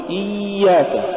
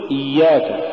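First: إياك with a long high iiy; iiiy-yak, exaggerated glide in إياك; overdone softness. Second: إياك with a measured doubled y; moderately held y in إياك; balanced ya. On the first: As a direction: drag out the y in إياك, pitched higher. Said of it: "ولا تقل". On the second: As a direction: say إياك without dragging the glide. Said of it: "قل". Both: Shown as a demonstration.

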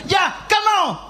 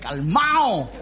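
First: Offhand calm-down. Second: Low, laughing repeat of calmao; a tickled low "calmao"; laughing echo. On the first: Acted. Jesus calms the sea. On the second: Shown as a demonstration. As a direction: say calmao again, chuckling and low. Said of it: "echo of "Ya, calmao".

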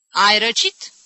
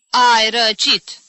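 First: "Ai răcit" as a loud question with rising end; questioning opinion. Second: "Ai răcit" slow, loud and drawn out; emphatic diagnosis. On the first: Aunt offering the sufferer a diagnosis, "Ai răcit" as a rising question. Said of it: "opină tanti Agepsina". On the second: Aunt repeating her one diagnosis, "Ai răcit" slow and emphatic. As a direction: pronounce "Ai răcit" as a verdict, stretching it. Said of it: "diagnostică iarăși Agepsina". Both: Acted.

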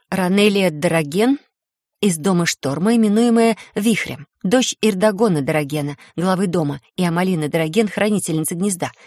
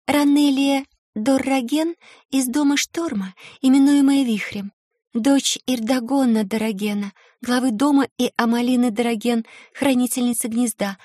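First: Majestic. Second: Put-on a shy young girl, lilting and formal; melodic girl's voice. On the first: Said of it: "я величественно произнесла". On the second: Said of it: "Её мелодичный голосок напоминал журчание ручейка". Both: A narrator's reading.

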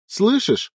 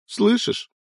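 First: High, falling, breaking plea; the plea collapsing into grief; broken cry. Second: High, rising tearful plea; pleading cry. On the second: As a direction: beg him to hear you. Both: Acted. Son screams over dead father.

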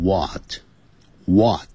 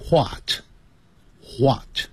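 First: WHAT starting on a plain w, no h, "waht"; drawn-out what with a silent h; American English what. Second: WHAT with a breathed h before the w, "hwot"; British English what. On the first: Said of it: "现在我们教的是美式英语或加拿大英语". (美式发音，what不带h音，读作waht) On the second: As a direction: start what with an audible h puff. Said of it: "在英式英语念成". (英式发音，what开头带h音，读作hwot) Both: Shown as a demonstration.

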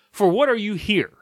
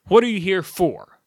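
First: Loud, high "what", falling away to "here"; stress on WHAT. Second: Slow question landing on a stretched "for"; stress on FOR. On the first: Vlogger arguing for the proper word order, stress on "what". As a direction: punch "what" in "For what are you here?". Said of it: "It puts emphasis on the". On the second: Vlogger showing where the emphasis falls, slow stress on final "for". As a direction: lean on the last word, "for", slowly. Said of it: "All the emphasis on that sentence is". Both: Shown as a demonstration.

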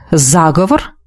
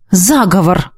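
First: "Заговор" lower, rising sharply at the end; questioning echo. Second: Said in the usual way. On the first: A narrator's reading. The Dark one querying her word "Заговор", low with a questioning rise.

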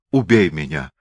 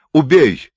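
First: Low, resigned plea for death. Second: Loud, high demand for death; desperate cry. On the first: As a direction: beg to be killed, pitched down. Beaten Moor begs for death. (обречённая мольба низким голосом) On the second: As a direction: cry it out, raised and forceful. Beaten Moor repeats plea, escalating. (отчаянный громкий возглас) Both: A narrator's reading.

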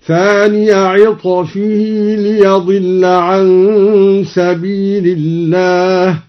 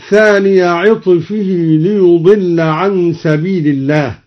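First: Slow chant, ليضل said "li-yadilla"; fatha on ليضل. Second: Said in the usual way. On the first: Shown as a demonstration. Teacher shows al-Duri's reading, ليضل chanted "li-yadilla". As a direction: chant slowly with an "a" after the y of ليضل. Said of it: "بفتح الياء من ضل". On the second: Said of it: "قرأ الدوري بفتح الياء".

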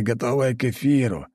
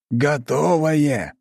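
First: Said in the usual way. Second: «Готовое» drawn out slowly and high for emphasis; emphatic stress. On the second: A narrator's reading. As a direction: stretch «Готовое», leaning hard on it. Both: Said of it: "выделил он голосом".

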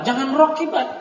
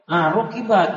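First: Rokibat said higher as the rejected form; rejecting rokibat with emphasis; correcting stress. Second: Rokibat imitated as the student's mistaken reading with i; mock the wrong vowel in rokibat; imitating the error rokibat. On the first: Shown as a demonstration. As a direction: scold the word rokibat.

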